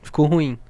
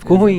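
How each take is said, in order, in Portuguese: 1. É dita com calma, em volume normal. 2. É dita em voz alta, como se estivesse gritando. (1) "O cara vai falar assim" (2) "Gritando com você mesmo"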